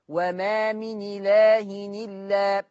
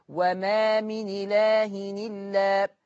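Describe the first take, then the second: No difference in how they are said.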